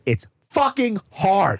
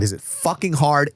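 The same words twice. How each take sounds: First: "fucking" pitched high, "hard" drawn out; slow, high, hammered "FUCKING... HARD"; emphatic FUCKING HARD. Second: Raised "fucking hard" posed as a question. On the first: Father answers his own question, stretched emphatic "fucking hard". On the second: Father asks himself about sleep training, questioning stress on "hard". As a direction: ask it, lifting "hard". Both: Real, not acted.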